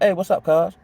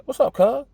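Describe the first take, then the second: First: Easy, casual hello with no edge; friendly greeting. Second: Much higher, pointed "What's up, cuz?" with a rising edge; challenging greeting. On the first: Homeboy just saying hello on the block, relaxed and friendly. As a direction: greet him like an old friend, no threat. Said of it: "Oh, he's speaking". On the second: Homeboy squaring up to the narrator, edgy and challenging. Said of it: "that's more like". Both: Shown as a demonstration.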